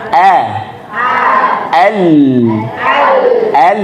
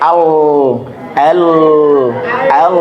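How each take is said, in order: First: The L sound is light and thin. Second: The L sound is heavy and thick. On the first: The speaker calls it right. "lam itu selalu tipis" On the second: The speaker calls it wrong. "jangan sampai"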